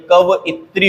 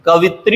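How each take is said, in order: First: कवइत्री as 'ka-va-i-tree'; correct split vowel. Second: कवित्री as three-syllable 'ka-vi-tree'; wrong merged vowel. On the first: Teacher gives the correction, कवइत्री with separate va-i. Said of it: "होता है". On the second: Teacher rejects a common error, कवित्री with merged vi. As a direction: run vi together in कवित्री. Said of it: "नहीं होती". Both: Shown as a demonstration.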